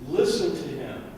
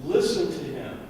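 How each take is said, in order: First: The stress falls on the word listen. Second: The stress falls on the word listen.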